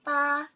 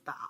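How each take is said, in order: First: The pitch stays level throughout. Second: The pitch falls first, then rises. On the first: "first tone is" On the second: "third tone is"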